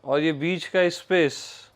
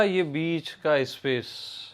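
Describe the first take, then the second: First: Said in the usual way. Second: Slow, with ये leaned on and the line falling; slow emphatic repeat. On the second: Shown as a demonstration. Teacher repeating the point to the listeners, slow with ये stressed. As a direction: say "ये बीच का space" slowly, stressing ये and dropping to a fall at the end. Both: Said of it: "ज्ञान को ही मैं क्या बोला?".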